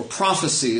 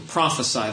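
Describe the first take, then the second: First: "prophecy" ending like "see"; noun pronunciation. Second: "prophesy" ending like "sigh"; verb pronunciation. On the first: Preacher showing the word for foretelling, "prophecy" ending in see. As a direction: say "prophecy" with a long-E last syllable. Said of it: "as we say that". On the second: Preacher showing the word for preaching, "prophesy" ending in sigh. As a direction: say "prophesy" with a long-I last syllable. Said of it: "or prophecy as we say that". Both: Shown as a demonstration.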